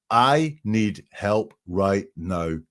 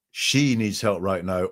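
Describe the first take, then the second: First: "I" said slowly and hit first; "I need help right now" slowed, the "I" stressed. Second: "She" stressed, slow; "She needs help right now" slowed, the "She" stressed. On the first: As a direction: lean on "I need". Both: Shown as a demonstration. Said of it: "It's not".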